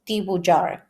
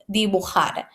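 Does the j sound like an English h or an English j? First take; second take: English j; English h. First: The j is said like an English j. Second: The j is said like an English h. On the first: The speaker calls it wrong. "don't say dibujar" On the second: The speaker calls it right. "J in Spanish makes the H sound, the English H sound"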